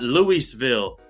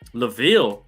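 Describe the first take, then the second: First: The name is said in three full syllables. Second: The name is said in two short syllables. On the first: The speaker calls it wrong. "not Louisville" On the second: The speaker calls it right. "Laville, not Louisville"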